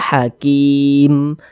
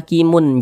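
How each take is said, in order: First: The word ends on a silent, vowelless m. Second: The word ends with an extra un syllable. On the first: The reader pauses at the end of the verse. The speaker calls it right. "kalau kita berwakaf di huruf mim kita baca hakim" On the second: The reader carries on as if not pausing. The speaker calls it wrong. "Jangan dibaca hakimun"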